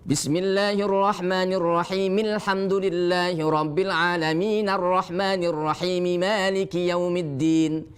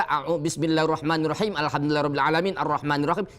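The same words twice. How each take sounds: First: Verses joined without breathing; proper wasol. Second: Hurried verses without breathing; rushed wrong reading. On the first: Teacher modelling correct joining of verses, no breath. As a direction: link each verse straight into the next. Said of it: "Cara wasol beda lagi". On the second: Teacher mocking the careless rushed reading, fast. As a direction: race through without a breath. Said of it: "Jangan sekali kita baca". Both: Shown as a demonstration.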